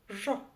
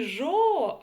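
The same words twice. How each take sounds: First: The vowel is clipped and very short. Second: The vowel is drawn out and long. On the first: The speaker calls it right. "прочитать ее очень и очень коротко" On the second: The speaker calls it wrong. "Не жо"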